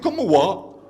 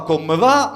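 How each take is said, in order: First: The second word starts with a w sound. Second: The second word starts with a v sound. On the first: This is how the listeners say it up in the mountains. The speaker calls it right. "les V sont des U" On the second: This is how the listeners do not say it. The speaker calls it wrong. "vous ne dites pas comme va"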